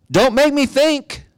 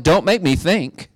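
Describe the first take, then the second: First: Very high, drawn-out mock whine; exaggerated mock complaint. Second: High-pitched mock protest; mock complaint. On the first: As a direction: stretch out the protest in a high, put-on voice. Mock protest repeated, far more exaggerated. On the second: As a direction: object on behalf of reluctant believers, pitched up. Mimicking people who resist thinking.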